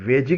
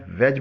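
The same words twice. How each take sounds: First: वेजी said as "veji", with a long final "ee"; wrong pronunciation. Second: वेज said short as "vej", with no final vowel; correct pronunciation. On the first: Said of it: "वेजी के बजाय वेज बोलना चाहिए". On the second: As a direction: clip वेज to a single syllable. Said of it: "वेज बोलना चाहिए". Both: Shown as a demonstration.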